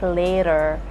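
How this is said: The T is softened and the R is sounded. "for Americans it will be like"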